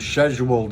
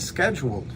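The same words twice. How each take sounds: First: It is said with a Canadian/British pronunciation. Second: It is said with an American pronunciation. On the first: "scheduled is how they say it, you know, in the proper proper salons in uh, in uh, uh, Canada" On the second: "oh, you mean scheduled?"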